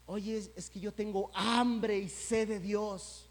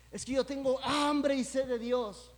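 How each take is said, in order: First: Slow, drawn-out claim of longing; mild mock plea. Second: Higher and louder, pushing the claim; mock insistent plea. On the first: People telling the preacher they hunger for God, slow mock plea. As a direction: stretch out hambre like a casual boast. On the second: People repeating to the preacher they hunger for God, higher mock insistence. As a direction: insist on hambre as if to convince. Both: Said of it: "que dicen".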